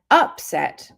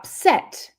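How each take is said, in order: First: The stress is on the first syllable. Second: The stress is on the second syllable. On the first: It is used as a noun. "the first syllable, if it's stressed, it's a noun" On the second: It is used as a verb. "If the second syllable is stressed, it's a verb"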